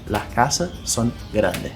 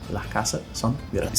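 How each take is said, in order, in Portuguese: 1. Os sons do S final são enfraquecidos ou omitidos. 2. Os sons do S final são enfraquecidos ou omitidos.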